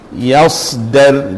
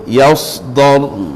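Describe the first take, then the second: First: The d sound is plain and light. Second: The d sound is heavy and emphatic. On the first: The speaker calls it right. "Dan yang betulnya sebelah sini" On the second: The speaker calls it wrong. "Jadi salahnya dia tersebut yasdar. ... jadi dhad"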